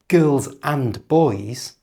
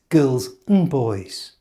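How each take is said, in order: First: And is said in full with its d. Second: And is reduced to a short un. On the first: The speaker calls it wrong. "it's not girls and boys" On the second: The speaker calls it right. "it's girls and boys"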